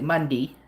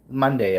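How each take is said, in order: First: It is said in a rural Nova Scotia accent. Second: It is said in the speaker's ordinary accent.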